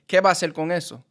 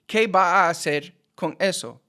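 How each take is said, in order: First: The words are linked together smoothly. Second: Each word is said separately, without linking. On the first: The speaker calls it right. "I say" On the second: The speaker calls it wrong. "I don't say"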